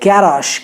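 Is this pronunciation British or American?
British. It is said in a British accent. "UK में इसे गैराश कहते हैं"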